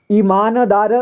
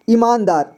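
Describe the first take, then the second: First: "ईमानदार" with न fully voiced as "na"; full न. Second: Said in the usual way. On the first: Shown as a demonstration. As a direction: say "ईमानदार" as i-maa-na-daa-ra. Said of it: "न का पूरी तरह से उच्चारण किया". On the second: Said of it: "पूरी तरह से उच्चारण नहीं किया".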